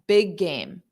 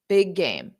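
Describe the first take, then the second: No difference in how they are said.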